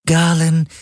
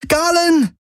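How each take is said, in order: First: Lightly voiced artificial companion, higher pitch; Schattenhelix. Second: Sudden high-pitched cry; schreien. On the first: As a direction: address him in a higher, level device voice. (leicht verstellte, höhere Helix-Stimme) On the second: A narrator's reading. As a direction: cry the name out in alarm, very high. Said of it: "schrie Kirai plötzlich". (plötzlicher hoher Schrei)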